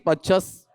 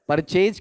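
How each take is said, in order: First: It ends with a reduced 'chus' sound. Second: It ends with a full 'chase' sound. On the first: The speaker calls it right. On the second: The speaker calls it wrong.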